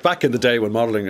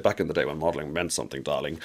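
First: Said in the usual way. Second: Lower, softer take on a glamorous mother; imitating mother. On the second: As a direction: quote your mother in a low, soft aside, dropping onto "darling". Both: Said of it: "as she said".

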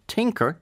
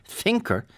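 First: "Tinker" starting on a crisp T; hard T pronunciation. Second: "thinker" starting on a clear TH; higher, deliberate "thinker" with TH, not T; TH pronunciation. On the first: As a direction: say "Tinker" with a plain T, as in T I N. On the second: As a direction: say "thinker" slowly, tongue to teeth for TH. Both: Shown as a demonstration. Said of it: "they must be pronounced differently".

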